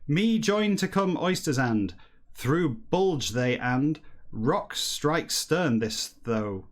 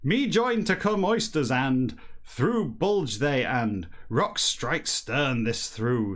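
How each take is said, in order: First: It is read in a plain, normal voice. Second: It is read in a slightly silly voice.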